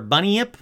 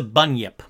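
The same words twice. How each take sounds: First: "bunyip" as BUN-ee-ip, rising; three-syllable bunyip. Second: "bunyip" said as BUN-yip; two-syllable bunyip. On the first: Narrator unsure of the word, "bunyip" as BUN-ee-ip. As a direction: split "bunyip" into BUN-ee-ip, questioning. Offers alternative pronunciation, unsure. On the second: Narrator naming the creature, "bunyip" as BUN-yip. Offers two possible pronunciations of word. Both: Shown as a demonstration.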